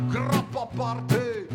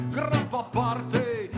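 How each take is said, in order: No difference in how they are said.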